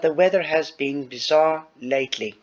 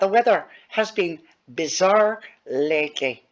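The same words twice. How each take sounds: First: It is read in the speaker's ordinary accent. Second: It is read in an Irish accent.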